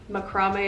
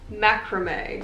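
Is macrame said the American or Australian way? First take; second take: Australian; American. First: The word is said with the Australian pronunciation. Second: The word is said with the American pronunciation. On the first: "I think in Australia it is actually" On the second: "In America it's macrame"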